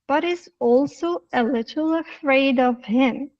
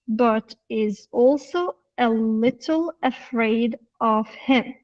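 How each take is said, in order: First: The words run together with reduced sounds. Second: Each word is said separately and fully. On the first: "using the connected speech and some reduction" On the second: "the normal reading"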